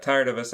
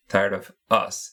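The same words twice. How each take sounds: First: Said in the usual way. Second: "Tired of us" said slowly with weight; stress on tired. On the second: Shown as a demonstration. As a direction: lean into "Tired of us", drawing it out.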